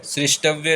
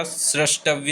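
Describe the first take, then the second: First: सृष्टव्य said srishtavya, with i; wrong form srishtavya. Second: सृष्टव्य said srashtavya, with a; correct form srashtavya. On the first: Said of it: "सृष्टव्य नहीं होता". (गलत उच्चारण: सृष्टव्य में 'रि') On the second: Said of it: "सृष्टव्य होता है". (सही उच्चारण: 'स्रष्टव्य') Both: Shown as a demonstration.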